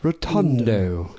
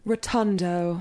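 First: Slow posh English "Rotundo" with long vowels; posh Hugh Grant accent. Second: A lightly posh British "Rotundo", rounded and drawn out; posh English accent. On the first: Imitating Hugh Grant for friends, slow and posh. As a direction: drawl "Rotundo" in a mild Hugh Grant style. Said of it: "like, Hugh Grant saying it". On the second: Friends ask for the word in a posh English accent. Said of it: "how do you say rotundo in a posh voice". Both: Pretend.

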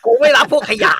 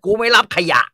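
First: Much higher, much louder scornful yell; furious shout. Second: Louder, higher scornful snap at a patient; angry refusal. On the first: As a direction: blow up at the patient, full force. (หมอตะโกนไล่คนไข้อย่างเดือดดาล เสียงดังและสูงมาก) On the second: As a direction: bark it at the patient like a proud doctor. (หมอตวาดไล่คนไข้ เสียงดังและสูงขึ้น) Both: Retold or imitated. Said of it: "ถ้าเป็นหมอฝ่ายเทพ จะบอกว่า".

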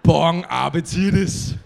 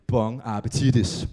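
First: Much louder, slow and laughing; loud laughing "Bon appetitis"; loud grand sign-off. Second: Slow, lower posh-waiter flourish; hammed-up restaurant farewell; mock fancy chef. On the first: Acted. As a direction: belt it out proudly like a triumphant chef. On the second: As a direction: drawl it like a pompous chef.

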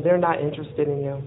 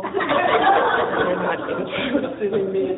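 First: Said in the usual way. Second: Slow, laughing disbelief; amused, incredulous echo. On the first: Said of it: "he says". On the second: Retold or imitated. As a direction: repeat it through a laugh, drawn out.

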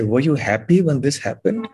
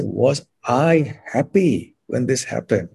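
First: "happy" lifted, question rising at the end; stress on happy. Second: "I" stressed hard, whole question slowed. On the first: Teacher demos intonation to interviewer, stressing "happy". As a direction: ask it leaning on "happy". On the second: Teacher demos emphasis to interviewer, slow stress on "I". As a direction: lean on "I" and draw the question out. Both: Shown as a demonstration. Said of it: "I emphasize a certain thing".

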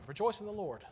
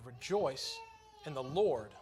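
First: "Rejoice" pitched high and punched, falling away after; stress on REJOICE. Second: "Lord" hit louder, after a short pause; weight falls on the word "Lord"; stress on LORD. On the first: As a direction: hit REJOICE high, let "in the Lord" drop. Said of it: "I always placed the emphasis on the wrong part". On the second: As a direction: pause after "rejoice", then land firmly on LORD. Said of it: "that's not actually what the emphasis is". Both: Shown as a demonstration.

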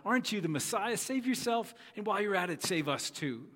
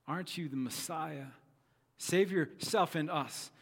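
First: High-pitched, cynical taunt; spitting sarcasm. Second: Measured, mildly taunting first reading; hurled insult. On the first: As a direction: spit the words out with disgust. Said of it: "Spitting these words out". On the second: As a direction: read the criminal's challenge with restrained scorn. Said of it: "hurled insults at Jesus". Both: Acted.

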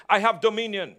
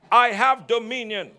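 First: Said in the usual way. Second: "I have dominion" with firm conviction, from the heart; a touch more conviction in the declaration; said like you mean it. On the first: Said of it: "Oh, come on, say it like you mean it". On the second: Shown as a demonstration. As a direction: declare it as if you truly believe it. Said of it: "say it like you mean it".

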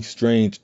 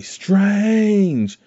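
First: Said in the usual way. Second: High, delighted call of the name; happy calling out. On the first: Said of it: "in a very happy way". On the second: Retold or imitated. Wong calling happily to Strange, high delighted call. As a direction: cheer his name like a happy reunion. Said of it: "He's actually saying "Strange" in a very happy way".

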